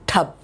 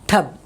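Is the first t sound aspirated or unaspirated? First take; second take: aspirated; aspirated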